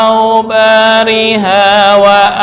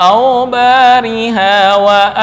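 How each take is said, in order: The two takes are said the same way.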